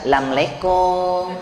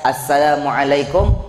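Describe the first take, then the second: First: The greeting is squeezed into a few unclear syllables. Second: Every syllable of the greeting is clearly pronounced. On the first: The speaker calls it wrong. "Jangan lamleikum, gak jelas" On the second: The speaker calls it right. "salam yang sempurna"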